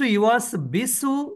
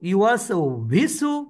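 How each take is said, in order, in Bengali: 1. দ্বিতীয় শব্দটি b ধ্বনি দিয়ে শুরু হয়। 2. দ্বিতীয় শব্দটি v ধ্বনি দিয়ে শুরু হয়। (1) "এগুলো আমরা বলবো না" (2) "এগুলো আমরা বলবো না"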